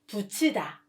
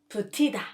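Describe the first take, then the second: First: The second syllable starts with a ch sound. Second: The second syllable starts with a t sound. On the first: The speaker calls it right. "the right pronunciation becomes 붙이다" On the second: The speaker calls it wrong. "not 붙이다"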